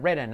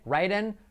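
First: "written" with a short "ih" vowel. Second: "Writing" with a wide "eye" vowel; higher "Writing", first syllable like "rye"; long vowel in writing. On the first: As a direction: clip "written" short, first syllable unlike "rye". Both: Shown as a demonstration. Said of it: "Esa es la diferencia".

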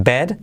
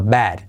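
First: BED with a plain closed E vowel. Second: BAD with a wide-open E, nearly A; E almost like A. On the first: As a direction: say "bed" with the mouth less open. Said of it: "No es bed". ("bed" con E cerrada) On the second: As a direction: open the vowel of "bad" towards A. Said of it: "se hace casi como una A". ("bad" con E muy abierta, casi A) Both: Shown as a demonstration.

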